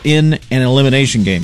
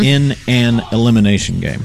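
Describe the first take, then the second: First: It is said at normal, quick speed. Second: It is said slowly and carefully.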